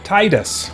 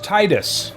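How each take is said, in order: First: The first syllable sounds like the word tide. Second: The first syllable sounds like the word tide.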